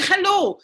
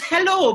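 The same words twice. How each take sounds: First: "hello" with a harsh KH at the start; high, guttural mock Spanish "hello". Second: High, corrective "hello" with no throat rasp; proper English H. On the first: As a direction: scrape the H of "hello" in the throat. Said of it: "Why are you saying hello?". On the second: Shown as a demonstration. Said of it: "It's hello".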